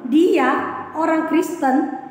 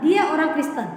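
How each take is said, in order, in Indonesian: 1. Diucapkan dengan nada terkejut dan tidak percaya. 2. Diucapkan sebagai pernyataan biasa, apa adanya. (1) "itu adalah satu ungkapan keheranan atau tidak percaya" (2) "Itu adalah sebuah pernyataan"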